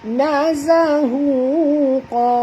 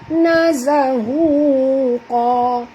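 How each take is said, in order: Both takes have the same delivery.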